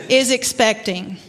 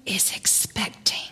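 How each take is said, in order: First: Said in the usual way. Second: Hushed Southern whisper of expecting; whispered in a Southern accent. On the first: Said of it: "she would whisper". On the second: Retold or imitated. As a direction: breathe it out like a secret. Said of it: "she would whisper in her very Southern accent".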